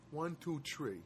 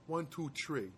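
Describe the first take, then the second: No difference in how they are said.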